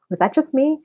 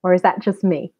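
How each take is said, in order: First: "me" lifted high, half joking; higher questioning repeat. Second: Said in the usual way. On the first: Real, not acted. Asking viewers if only she struggled, higher. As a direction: ask again much higher, playful.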